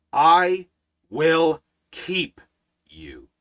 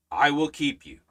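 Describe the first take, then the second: First: I, then will keep, then you, each set apart by a pause; spaced emphatic words. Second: Said in the usual way. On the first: Shown as a demonstration. Pastor showing the congregation how God said it, word by word. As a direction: lay each word down slowly and separately. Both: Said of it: "said it like this".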